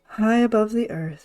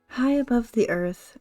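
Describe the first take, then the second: First: The voice is pitched deep and low. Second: The voice is pitched fairly high. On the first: The speaker calls it right. "the deeper voice that I have is easier on my throat" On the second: The speaker calls it wrong. "No, we're going to drop drop it down down here"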